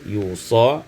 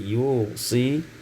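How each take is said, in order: First: The word ends in an a sound. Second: The word ends in an i sound.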